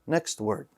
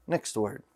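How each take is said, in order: The two takes are said the same way.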